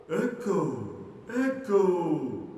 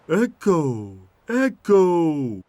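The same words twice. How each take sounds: First: High, distant returning calls; faraway echo of a yell; echo shouting back. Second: High, loud drawn-out calls; yelling. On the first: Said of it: "shouted the echo". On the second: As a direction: yell out to wake the echo. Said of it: "yelled Tommy the trailer". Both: Acted.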